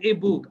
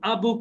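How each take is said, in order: First: The article is said with an 'ay' vowel. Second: The article is said with an 'uh' vowel. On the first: The speaker calls it right. "আর যদি শুরুতে থাকে তাহলে হচ্ছে এ" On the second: The speaker calls it wrong. "আ book is বলবো না"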